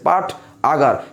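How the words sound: It is split into two parts with a break. The speaker calls it wrong. "কঠিন লাগতেছে, দুইবার থামতে হচ্ছে"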